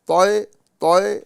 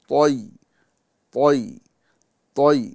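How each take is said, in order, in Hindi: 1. स्वर एक तीखे झटके के साथ बाहर धकेला जाता है। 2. स्वर बिना किसी झटके के नरमी से फिसलता है। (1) "तोय तोय नहीं पढ़ेंगे" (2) "बल्कि"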